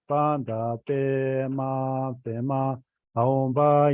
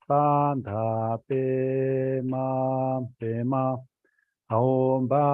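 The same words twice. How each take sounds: First: The spelling is recited at a very fast speed. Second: The spelling is recited at a moderate speed. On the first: "Now spelling still faster" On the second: "let's spell a little bit faster"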